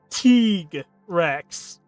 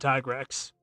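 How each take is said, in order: First: The first syllable sounds like 'tee'. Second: The first syllable sounds like 'tie'. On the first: This is the official pronunciation. The speaker calls it wrong. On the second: This is how the speaker has always said it. The speaker calls it right. "I've always said him as Tigrex"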